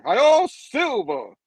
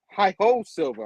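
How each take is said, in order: First: High, loud, drawn-out holler; hammed-up rallying cry; cowboy rallying call. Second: Half-hearted call. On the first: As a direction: cry it out like a cowboy, stretched long. Redoes the cowboy call in full. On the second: Retold or imitated. First try before apologising.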